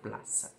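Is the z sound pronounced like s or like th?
s. The z is said as a plain s sound. This is how it is said in other Spanish-speaking countries. "Z é Z apenas com som de cedilha normal"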